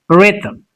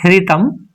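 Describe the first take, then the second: First: The h sound is silent. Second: The h sound is pronounced. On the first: The speaker calls it right. "So here H is silent" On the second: The speaker calls it wrong. "It's not rhythm"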